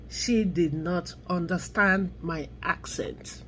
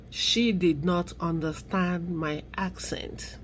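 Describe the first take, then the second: First: Said in the usual way. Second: Breathy whisper, slow and disbelieving; whispered repeat. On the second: Shown as a demonstration. Repeating the agent's excuse to viewers, whispered. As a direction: let it sink in under your breath. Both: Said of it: "repeats the agent's excuse".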